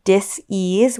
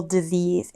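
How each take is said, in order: First: "dis-ease" slowly, as two separate parts, dis and ease; split pronunciation. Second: Said in the usual way. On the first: Shown as a demonstration. Podcast host explaining chakra blockages, "dis-ease" split in two. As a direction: break "dis-ease" apart so that ease stands as its own word.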